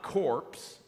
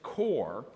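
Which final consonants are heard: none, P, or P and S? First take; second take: P and S; none. First: The word ends with both P and S sounds. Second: The word ends without any P or S sound. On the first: The speaker calls it wrong. "So it's not corpse or corp in that regard" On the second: The speaker calls it right. "it's core"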